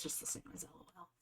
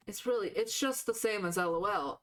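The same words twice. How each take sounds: First: Softer, whispered under the breath; whispered aside. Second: Said in the usual way. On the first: Real, not acted. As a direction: mutter it to yourself, barely voiced. Aside then repeated aloud.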